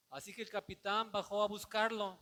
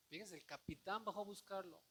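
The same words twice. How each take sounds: First: Louder, ringing proclamation of the verse; loud scripture read. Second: Said in the usual way. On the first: Shown as a demonstration. Pastor proclaiming the verse aloud to the church, ringing and loud. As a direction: announce the verse to the congregation. Reading the verse, then repeating it.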